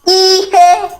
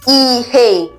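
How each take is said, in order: First: It has the tone pattern of the word something. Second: It has the tone pattern of the word light. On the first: It means something. "Something. ... This is as a result of tonation" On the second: It means light. "Light. ... This is as a result of tonation"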